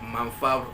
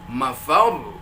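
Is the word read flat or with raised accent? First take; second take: flat; raised. First: The pitch stays level across the word. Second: The pitch rises on the syllable before the end. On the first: The speaker calls it wrong. "jangan mafar" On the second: The speaker calls it right. "tapi mafar itu"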